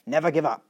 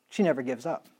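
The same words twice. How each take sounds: First: Lightly imitated German accent, short and emphatic. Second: Said in the usual way. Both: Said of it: "in her German accent".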